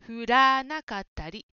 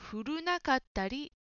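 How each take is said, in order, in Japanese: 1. 二番目の音は「ra」だ。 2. 二番目の音は「ru」だ。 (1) "降らなかったりです" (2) "雪が降るなかったりと言っているように聞こえました"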